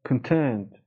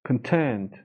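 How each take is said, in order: No difference in how they are said.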